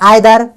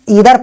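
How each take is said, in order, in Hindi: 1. शब्द 'eye' स्वर से शुरू होता है। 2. शब्द छोटी 'ih' स्वर से शुरू होता है। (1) "कोई भाई प्रोनाउंस करता है आइदर" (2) "पर मैं इसे इधर पढ़ता हूं"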